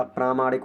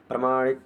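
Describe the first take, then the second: First: प्रामाणिक with long first "praa"; correct long vowel. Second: प्रामाणिक with short first "pra"; wrong short vowel. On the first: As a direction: stretch the opening प्रा in प्रामाणिक. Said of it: "पा पे बड़ी की मात्रा आई". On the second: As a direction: shorten the opening प्रा in प्रामाणिक to प्र. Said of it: "प्रामाणिक नहीं होता". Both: Shown as a demonstration.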